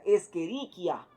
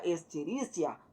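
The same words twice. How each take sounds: First: The ch is said as a k sound. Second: The ch is said as in Spanish 'chico'. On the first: The speaker calls it right. "se va a pronunciar como una letra K" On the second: The speaker calls it wrong. "ya no sería"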